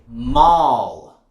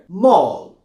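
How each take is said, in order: First: The vowel is wide and open. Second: The vowel is narrow and rounded. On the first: "Americans will say ... It's more open" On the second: "in British English ... very narrow"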